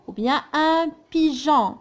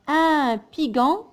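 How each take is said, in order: First: "pigeon" said correctly with a soft J sound. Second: "pigeon" said with a hard G, like "piguon"; wrong hard G. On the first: Teacher to pupils giving the right "pigeon" after the wrong one. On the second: Teacher to pupils giving the wrong "pigeon" first. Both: Shown as a demonstration.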